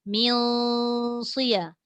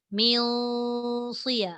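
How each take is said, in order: No difference in how they are said.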